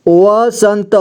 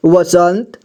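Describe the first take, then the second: First: वसंत spelled out as va-san-ta; syllable-by-syllable reading. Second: Said in the usual way. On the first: Shown as a demonstration. Teacher showing learners how to join letters, वसंत as va-san-ta. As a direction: sound out वसंत with the final vowel voiced. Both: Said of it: "जोड़ जोड़ करके पढ़ना है".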